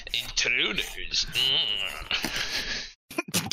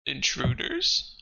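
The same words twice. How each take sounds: First: Slow eerie whisper, drawn out; slow stone monotone. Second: Drawn-out, slow eerie voice; slow monster voice. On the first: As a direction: whisper it like a voice in the head. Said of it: "It's like". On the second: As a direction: stretch it out like a creature. DM voicing the voice in head. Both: Acted.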